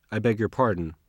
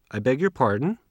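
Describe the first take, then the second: First: Pardon said with a falling tune, stress on beg. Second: Pardon asked with a rising question tune. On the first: Teacher models the falling apology. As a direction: say it flat and final, dropping at the end. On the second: Teacher models the polite rising request. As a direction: ask it back, pitch going up at the end. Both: Shown as a demonstration.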